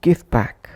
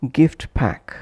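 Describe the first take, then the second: First: GIFT PACK as "gif pack"; dropped T. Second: GIFT PACK with the t of GIFT released; full final T. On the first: Teacher showing connected pronunciation, dropped T. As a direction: push "gif" straight into "pack". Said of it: "omitting T or T completely". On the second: Teacher showing separate words, full final T. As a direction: say "gift" fully, then "pack". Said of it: "pronounced as". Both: Shown as a demonstration.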